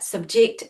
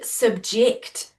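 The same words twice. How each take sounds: First: The stress is on the second syllable. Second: The stress is on the first syllable. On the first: It is used as a verb. "subject is a verb" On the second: It is used as a noun. "it all depends where you put the stress on the syllable as to whether it's a noun or a verb"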